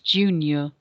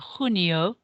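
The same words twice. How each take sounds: First: It begins with an English J sound. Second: It begins with a throaty sound from the back. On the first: The speaker calls it wrong. "rather than what we would say in English" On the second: The speaker calls it right. "which is more of a G, G sound"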